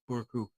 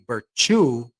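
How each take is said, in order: First: The middle consonant is a k sound. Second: The middle consonant is a ch sound. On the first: It is read as the spelling looks. "it looks like Burku" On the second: The letter would have the little tail. "then it's like a ch"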